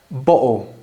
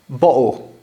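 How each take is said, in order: Both takes have the same delivery.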